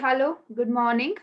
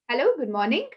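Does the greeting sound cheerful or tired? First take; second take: tired; cheerful. First: The greeting sounds flat, low and tired. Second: The greeting sounds gently warm and cheerful. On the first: The speaker seems uninterested and unenthusiastic. The speaker calls it wrong. "very tired" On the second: The speaker shows a balanced, pleasant attitude. The speaker calls it right. "That's enough"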